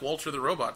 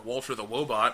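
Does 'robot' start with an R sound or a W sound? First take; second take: R sound; W sound. First: Robot is said with a normal R sound. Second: Robot is said with a W sound.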